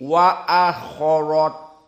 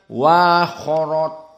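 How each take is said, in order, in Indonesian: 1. Hamzah dibaca penuh dan jelas. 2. Hamzah dilunakkan dan diringankan. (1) "Kalau jumhur ditahqiq" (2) "Lalu ditashil bagaimana?"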